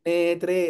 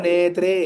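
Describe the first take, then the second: First: The r sound is said softly and lightly. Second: The same.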